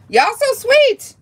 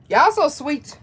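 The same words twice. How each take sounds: First: Very high, drawn-out squeal; gushing squeal. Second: Gently raised, affectionate coo; touched cooing. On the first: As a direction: squeal it slowly, overwhelmed with affection. Repeats it, more overwhelmed. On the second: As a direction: coo it, moderately high. Touched, thanking gift givers. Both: Real, not acted.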